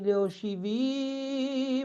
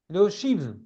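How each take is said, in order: First: The word ends with an added, lengthened final vowel. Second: The word stops abruptly on its final consonant. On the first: "a pour effet de prolonger légèrement la prononciation du mot" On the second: "c'est une coupure"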